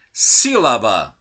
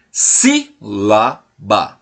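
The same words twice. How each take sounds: First: Said in the usual way. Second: "Sílaba" slowly broken as si, la, ba; split into syllables. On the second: Shown as a demonstration. Teacher has pupils listen to each syllable, "Sílaba" slowly separated. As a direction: say "Sílaba" in three separate beats with gaps between.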